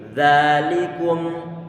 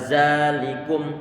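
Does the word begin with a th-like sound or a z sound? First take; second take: th-like sound; z sound. First: It begins with a soft th-like sound. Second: It begins with a buzzing z sound. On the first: The speaker calls it right. "tapi dzalikum" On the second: The speaker calls it wrong. "biar nanti tidak terdengar suara zalikum"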